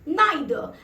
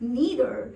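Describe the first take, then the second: First: It is said with a British pronunciation. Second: It is said with an American pronunciation.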